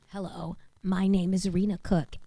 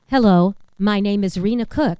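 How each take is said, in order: First: The voice sounds thin and strained, lacking air. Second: The voice sounds full and well supported by air. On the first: The speaker calls it wrong. "I'm trying to speak to you on no breath" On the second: The speaker calls it right. "I just took a full breath"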